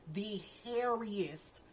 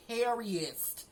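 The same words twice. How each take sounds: First: Drawn out. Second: Said in the usual way. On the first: Real, not acted. Describing mom's glare, slow drawn-out "hairiest". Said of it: "slowed repeat". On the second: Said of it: "repeats the word".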